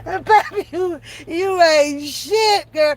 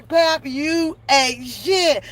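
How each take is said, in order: First: Slow drawn-out chat insult. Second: Slow, even, deadpan reading; slow flat chat insult. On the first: Streamer reading a teasing viewer comment, slow and amused. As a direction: stretch each word, teasing. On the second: Streamer repeating the viewer insult, slow and deadpan. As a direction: say it slowly, deadpan. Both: Shown as a demonstration. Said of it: "Y'all can type".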